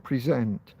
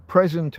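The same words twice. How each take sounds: First: "present" stressed pre-SENT, as the verb; stress on second syllable. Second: "present" stressed PRES-ent, like a gift; stress on first syllable. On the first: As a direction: push down on the end of "present". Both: Shown as a demonstration. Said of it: "two words spelled exactly the same".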